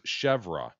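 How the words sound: The word is said the American way. "while the Americanized version is chèvre. It's also become acceptable"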